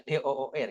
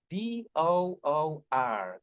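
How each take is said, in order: First: "D O O R" spelt with Indonesian letter names, de o o er. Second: "D O O R" spelt slowly with English letter names, dee oh oh ar. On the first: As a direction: read "D O O R" the Indonesian way, de o o er. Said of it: "Kalau Indonesia mah udah ya". (eja "D O O R" dengan nama huruf Indonesia: de, o, o, er) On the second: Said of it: "gimana kalau kita eja door ini". (eja "D O O R" pelan dengan nama huruf Inggris: di, o, o, ar) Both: Shown as a demonstration.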